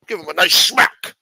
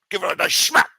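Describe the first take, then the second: First: Louder, higher Scottish Connery voice leaning on nice; Sean Connery accent. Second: Higher, breathy-free unvoiced Scottish Connery rasp on nice smack; Sean Connery accent. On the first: Acted. Washington urging a smack, loud Scottish Connery accent. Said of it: "If he didn't sound like Sean Connery". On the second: Washington repeating advice, husky Scottish Connery accent. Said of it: "What do you think he sounded like".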